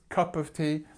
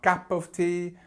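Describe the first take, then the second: First: The vowel in cup sounds like up. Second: The vowel in cup sounds like cap. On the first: The speaker calls it right. "remember this uh sound" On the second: The speaker calls it wrong. "It's not cap of tea"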